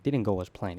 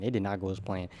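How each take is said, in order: First: Said in the usual way. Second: "did not" spelled out, each word leaned on and lower; stress on did not. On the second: Shown as a demonstration. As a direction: hit "did not" firmly and separately. Restating with emphasis.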